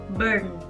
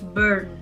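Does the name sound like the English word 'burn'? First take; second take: yes; yes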